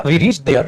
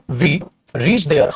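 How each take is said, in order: First: Said in the usual way. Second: We reached there, word by word, very slow; dictating "we reached there" at a crawl; slow dictation. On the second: Shown as a demonstration. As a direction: spell out "we reached there" slowly for students to copy.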